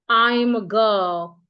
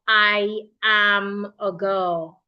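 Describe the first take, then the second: First: The first two words are contracted to I'm. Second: The first two words are said fully as two. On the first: "you go I'm" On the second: "Instead of I am a girl"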